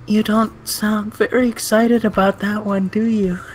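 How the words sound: It is read in Hanako's cute voice.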